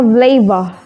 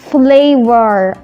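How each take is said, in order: First: The final R is soft or nearly silent. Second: The final R is clearly pronounced.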